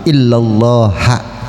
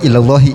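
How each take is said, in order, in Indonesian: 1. Kata itu diakhiri dengan vokal a. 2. Kata itu diakhiri dengan vokal i. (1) "beramal jadi illallaha boleh" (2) "Yang enggak boleh illallahi, salah"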